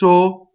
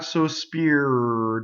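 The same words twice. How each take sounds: First: The R is Italian, separate from the vowel. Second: The R is American, blended into the vowel.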